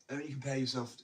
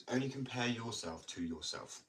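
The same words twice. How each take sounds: First: "Only compare yourself" said higher and louder, leaning on "compare"; emphatic advice. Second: "only compare yourself to yourself" slowed down, with the weight on "only"; slow deliberate advice. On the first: Skater telling listeners how to judge themselves, "Only compare yourself" high and loud. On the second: Skater driving the advice home to listeners, slow and deliberate. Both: Real, not acted.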